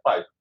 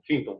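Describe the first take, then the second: First: The first syllable sounds like 'pie'. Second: The first syllable sounds like 'fin'. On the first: The speaker calls it right. "Não, é Python" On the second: The speaker calls it wrong. "muita gente falava Finton"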